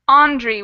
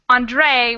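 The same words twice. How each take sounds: First: The stress is on the first syllable. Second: The stress is on the second syllable. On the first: "Andre with an accent on the first syllable" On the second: "Andre with an accent on the second syllable"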